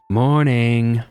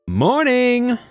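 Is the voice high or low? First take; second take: low; high. First: It is said in a lower-pitched voice. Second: It is said in a high-pitched voice.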